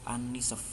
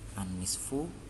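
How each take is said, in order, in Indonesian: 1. Kata itu berakhir pada konsonan. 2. Kata itu berakhir dengan vokal pendek.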